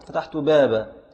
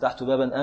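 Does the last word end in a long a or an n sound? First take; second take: long a; n sound. First: The word ends with a long a, then stops. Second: The word ends with an n sound, running on. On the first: The speaker stops on this word. "فإذا وقفت على بابا تقول فتحت بابا" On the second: The speaker keeps going without a pause. "فتقف على المنون المنطوق نونا عند الوسط"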